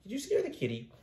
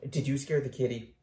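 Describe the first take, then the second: First: Much higher, soft coo to the kitty; soft high pet voice. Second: Said in the usual way. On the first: Real, not acted. Baby talk to cat.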